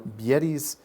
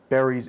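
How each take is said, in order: First: It has Russian-style vowels. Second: It has short, simple English vowels. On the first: The speaker calls it wrong. "or bieris" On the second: The speaker calls it right. "instead of berries"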